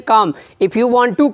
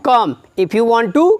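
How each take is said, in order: Both takes have the same delivery.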